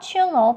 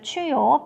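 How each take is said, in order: First: The middle consonant is a clear L sound. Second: The middle consonant is a Y sound. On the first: This is the English way of saying it. "영어로 읽을 때는 출로라고 한다고 했었습니다" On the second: This is the original Spanish way of saying it. "스페인 발음으로는 추요라고 한다고 했습니다"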